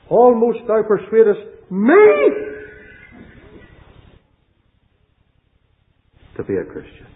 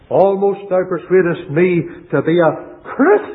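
First: The stress is on "me". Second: The stress is on "Christian".

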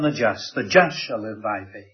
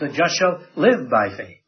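First: The word just is stressed. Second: The word live is stressed. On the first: The focus is on who is righteous. "he puts his emphasis on the just" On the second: The focus is on how the righteous live. "puts the emphasis on the line"

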